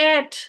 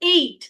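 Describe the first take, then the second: First: The vowel is short, sounding like 'et'. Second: The vowel glides, sounding like 'eight'. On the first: The speaker calls it wrong. "প্রোনাউন্সিয়েশনটা এভাবে করে উচ্চারণ করেন যে" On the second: The speaker calls it right. "উচ্চারণটা হচ্ছে এইট"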